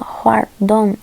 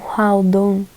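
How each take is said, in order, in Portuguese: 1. A consoante do meio soa como um R. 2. A consoante do meio soa como um L. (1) "fala Huardon" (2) "e não Hualdon ... a romanização fica com L"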